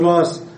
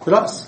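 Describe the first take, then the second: First: A long a vowel replaces the glottal stop. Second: A glottal stop closes the first syllable.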